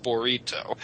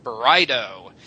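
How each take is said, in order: First: "burrito" with a Spanish trilled r; Spanish pronunciation. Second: "burrito" slowly in a plain American way; anglicized pronunciation. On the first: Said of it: "it's a Spanish word". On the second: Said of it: "that's why you guys say". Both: Shown as a demonstration.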